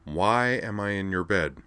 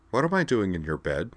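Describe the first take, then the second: First: Measured, drawn-out question; patient retry. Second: Calm, mildly puzzled asking; calm question. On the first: Woman retrying her question after counting, with strained patience. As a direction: ask it with deliberate, held-back patience. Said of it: "counted to Wamach, and tried again". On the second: Woman waking in his bed asks him, calmly. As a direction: ask it evenly, without alarm. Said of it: "asked Wakaba calmly". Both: A narrator's reading.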